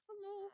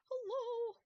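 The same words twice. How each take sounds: First: Much higher-pitched hello; high, drawn hello at usual volume; insistent call. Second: Very high, loud hello; long, high-pitched holler; loud calling out. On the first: Calling out, rising with each try. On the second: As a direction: call out high and insistent. Calling out louder after no answer. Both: Real, not acted.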